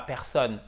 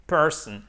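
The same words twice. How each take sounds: First: Personne the French way, for contrast. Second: Person with an English r and stress on per. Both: Shown as a demonstration. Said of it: "et pas personne".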